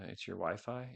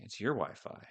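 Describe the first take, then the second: First: Said in the usual way. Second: Louder repeat, leaning hard on "your"; teasing stress. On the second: Acted. Teasing a lagging viewer, punching "your". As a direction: pin the blame on "your".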